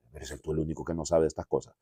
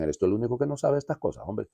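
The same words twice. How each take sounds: First: Low, muttered irritation from a disciple; hushed, a touch annoyed at the stranger; annoyed quote. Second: Annoyed quote. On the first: Disciple to the stranger, quietly irritated. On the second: Disciple snapping at the stranger, quick and exasperated. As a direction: rattle it off as if fed up. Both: Retold or imitated.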